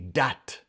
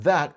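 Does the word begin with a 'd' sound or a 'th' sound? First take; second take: d; th. First: The word begins with a hard d sound. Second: The word begins with a soft th sound. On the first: "that would be dat" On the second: "T H often changes like to like T or D"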